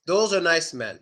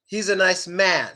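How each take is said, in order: First: Men with mouth barely open; short e in men. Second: Man with jaw dropped wide; He's a nice man, a open. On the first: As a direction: Those are nice men, small e. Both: Shown as a demonstration. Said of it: "the A sound".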